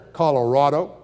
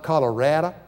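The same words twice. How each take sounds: First: "Colorado" with AH in the third syllable; broad-a Colorado. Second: "Colorado" with a short A as in cat; mock-local Colorado. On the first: Retold or imitated. Locals answering how the spelling is said, broad-a Colorado. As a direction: say "Colorado" as colo-RAH-do. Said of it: "And they said". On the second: Newcomer teasing locals with their own vowel, short-a Colorado. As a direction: say "Colorado" as colo-RADD-a. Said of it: "Not Colorado".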